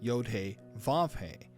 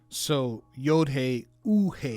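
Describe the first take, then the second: First: The third letter name begins with a V sound. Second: The third letter name is an oo vowel sound. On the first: This is the modern Hebrew pronunciation. "I've been pronouncing the Vav as Vav" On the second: This is another classical Hebrew pronunciation. "or it could be an oo sound"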